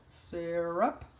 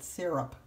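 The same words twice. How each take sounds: First: "Syrup." said as a quick one-syllable SURP; the way I say syrup, clipped to one syllable. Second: "syrup." said as two syllables, SEER-up; trying the other way, SEER-up. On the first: Grandma showing viewers how she says syrup, in one syllable. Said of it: "I don't know other way to say it". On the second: Grandma trying the two-syllable way viewers use. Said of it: "Maybe that's it". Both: Shown as a demonstration.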